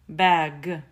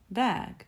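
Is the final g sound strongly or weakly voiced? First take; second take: strongly voiced; weakly voiced. First: The final g is strongly, fully voiced. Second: The final g is weakly voiced. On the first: The speaker calls it wrong. "Я не говорю bag" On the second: The speaker calls it right. "Это просто bag"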